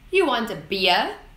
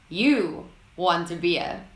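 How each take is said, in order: First: The pitch rises at the end. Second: The pitch falls at the end. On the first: It is asked as a question. "is a question in the upwards tone" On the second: It is given as a statement. "When using the falling tone"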